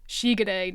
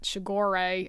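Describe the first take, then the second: First: The name is said with Japanese-style pronunciation. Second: The name is said with English-style pronunciation. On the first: "pronounced correctly in Japanese" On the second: "not Shigore"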